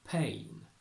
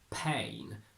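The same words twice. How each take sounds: First: The vowel starts more closed and less bright. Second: The vowel starts very open and bright. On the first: The speaker calls it right. "we say pain" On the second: The speaker calls it wrong. "it would be far too bright"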